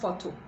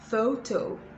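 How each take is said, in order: First: The first vowel is a pure vowel. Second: The first vowel glides as a diphthong. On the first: The speaker calls it wrong. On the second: The speaker calls it right.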